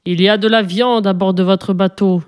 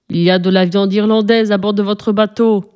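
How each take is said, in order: First: Understated growling sea monster; monstre qui gronde. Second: Mildly raised monster demand; monstre qui hurle. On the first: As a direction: rumble it lightly, as a storybook monster. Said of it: "gronda le monstre". (monstre qui gronde, avec retenue) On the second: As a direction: bellow it in narrator's restraint. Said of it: "hurla-t-il". (monstre qui hurle, avec retenue) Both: A narrator's reading.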